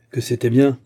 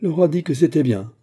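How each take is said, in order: First: Explosive outburst. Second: Said in the usual way. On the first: A narrator's reading. Captain to Lyonne, an explosive louder outburst. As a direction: burst out with "bien" louder. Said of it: "fit le capitaine avec explosion".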